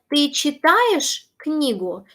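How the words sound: The pitch rises sharply within the sentence. It asks whether the listener is reading a book. "Just use your intonation"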